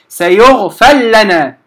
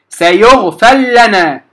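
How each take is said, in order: No difference in how they are said.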